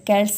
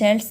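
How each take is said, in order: First: The word begins with a hard K sound. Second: The word begins with a soft S sound. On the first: The speaker calls it right. "Right pronunciation होता है" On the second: The speaker calls it wrong. "शेल्स नहीं होता है"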